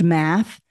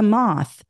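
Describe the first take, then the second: First: "math" with the short a of cat; original vowel. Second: "moth" with an open ah vowel; substituted vowel. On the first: Teacher recaps the change, "math" with short a. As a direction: say "math" with its front vowel, set apart. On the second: Teacher recaps the change, "moth" with open ah. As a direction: say "moth" with ah replacing the short a. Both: Shown as a demonstration. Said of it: "They changed math to moth".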